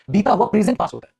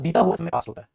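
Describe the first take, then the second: First: Slight lift on present as the corrected word. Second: Said in the usual way. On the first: Shown as a demonstration. Teacher offers the corrected phrase to students, a slight lift on present. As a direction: lean gently on present. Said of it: "भाषा में थोड़ा सा change करो". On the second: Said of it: "ये मत बोलो".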